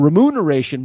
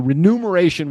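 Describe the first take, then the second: First: The second syllable begins with an m sound. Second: The second syllable begins with an n sound. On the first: The speaker calls it right. "That's the correct way of saying it" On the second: The speaker calls it wrong. "That's how you would normally say it"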